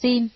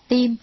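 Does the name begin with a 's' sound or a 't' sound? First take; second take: s; t. First: The name begins with an 's' sound. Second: The name begins with a 't' sound. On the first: This is the reading people commonly use. "nhưng ta thường đọc là Sim" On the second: This is the reading transcribed from Chinese. "được phiên âm sang tiếng Hán là Tim"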